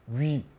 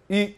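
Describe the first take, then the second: First: The vowel glides from a w-sound into i. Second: The vowel is one steady sound without gliding. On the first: "이렇게 하죠" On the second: "이렇게 안 합니다"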